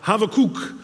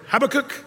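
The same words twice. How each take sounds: First: The name sounds like 'have a cookie'. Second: The name is said in a usual English way.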